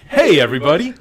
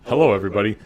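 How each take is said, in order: First: It sounds warm, casual and friendly. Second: It sounds stiff and formal, like a lawyer.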